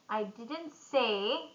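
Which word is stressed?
say. The stress falls on the word say. It was implied, not said. "I implied it"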